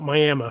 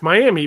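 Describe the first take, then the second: First: It is said the local Oklahoma way. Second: It is said the common, widely known way. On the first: This is how the locals in Oklahoma say it. "they they call it Miami for some reason" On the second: This is how most people know the name. "it's Miami"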